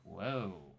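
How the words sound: It sounds cautious and unexcited.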